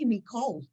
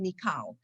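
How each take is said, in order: First: The second syllable has an 'aw' vowel. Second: The second syllable has an 'ah' vowel. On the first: "I say me cold" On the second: "I don't say mikal"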